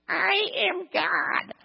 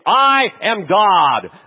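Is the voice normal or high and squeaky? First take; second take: high squeaky; normal. First: It is said in a high, squeaky voice. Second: It is said in an ordinary speaking voice. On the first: The claim sounds tiny and ridiculous from above. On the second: A person earnestly proclaims being divine.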